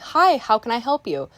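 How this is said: The voice is bright, happy and lively. The speaker is in a cheerful mood. "like how I usually am"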